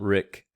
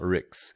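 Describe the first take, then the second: First: The syllable ends in a plain k sound. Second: The syllable ends in a ks sound. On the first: "It's not Rick" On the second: "it's not Ricks"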